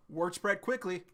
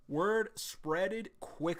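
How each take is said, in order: First: Said in the usual way. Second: Very slow, exaggerated word spreaded quick; mock-reread it slowly; slow mock reading. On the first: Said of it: "reads then mocks the line". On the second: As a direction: drag out the mangled phrase. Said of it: "mocking slow reread".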